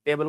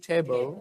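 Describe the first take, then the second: First: Said in the usual way. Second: "टेबल" with an aspirated t; model pronunciation. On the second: Shown as a demonstration. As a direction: puff air on the T of "टेबल". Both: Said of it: "टेबल को क्या बोलोगे?".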